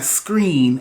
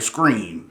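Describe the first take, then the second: First: It is said in a standard accent. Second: It is said in an Alabama accent. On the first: "Instead of saying screen" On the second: "I'm going back to my Alabama talk"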